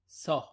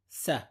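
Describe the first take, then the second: First: The consonant is pronounced heavy. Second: The consonant is pronounced light. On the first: The speaker calls it wrong. "Common mistake is to say Sa, that is to change it into a different letter" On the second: The speaker calls it right. "The correct pronunciation is Sa. ... say it with a light pronunciation"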